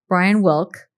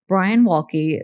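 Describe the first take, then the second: First: The final e of the surname is silent. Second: The final e of the surname is pronounced. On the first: The speaker calls it right. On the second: The speaker calls it wrong.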